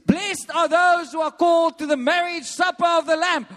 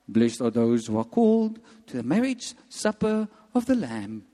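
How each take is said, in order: First: It is said excitedly, like an exclamation. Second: It is said plainly, without excitement.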